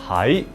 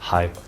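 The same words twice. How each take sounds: First: The word is said with a moving pitch. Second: The word is said on a flat pitch. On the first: Someone is in a place. "this one is tone number two" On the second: It is used to agree with someone. "is a flat tone. It's tone number six"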